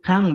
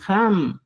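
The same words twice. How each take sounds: First: "ham" ending in a back NG, like hang; old final NG. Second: "ham" closed on the lips with M; new final M. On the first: Teacher cites the form to replace, "ham" ending in NG. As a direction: say "ham" as hang, lips open. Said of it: "En vez de decir ham". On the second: Teacher gives learners the replacement, "ham" ending in M. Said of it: "vas a decir ham". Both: Shown as a demonstration.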